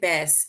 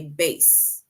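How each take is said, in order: First: The vowel rhymes with grass. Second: The vowel rhymes with case. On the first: It names a kind of fish. "In my country we say grass" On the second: It names a large string instrument. "it basically rhymes with case"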